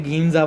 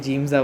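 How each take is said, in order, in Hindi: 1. इसकी शुरुआत कड़े g और लंबे ee से होती है। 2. यह j से शुरू होता है और ja पर खत्म होता है। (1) "कोई उसे गीमजा बोलता है" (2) "कोई जिम्जा बोलता है"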